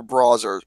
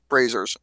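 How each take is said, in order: First: BROWSERS said with an "ow" vowel; misread name. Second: BRAZZERS said lower as a correction; corrected name. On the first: Host misreading a studio name, mispronounced BROWSERS. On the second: Host correcting his own misreading, corrected BRAZZERS. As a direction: fix it to "brazzers", dropping in pitch. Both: Real, not acted.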